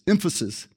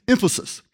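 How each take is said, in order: First: Emphasis said quickly, sounds running together; just say Emphasis and move on; plain first try at the word. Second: Emphasis said higher, each syllable placed with care; careful retry of the word. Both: Shown as a demonstration. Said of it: "That is a hard word to try to say".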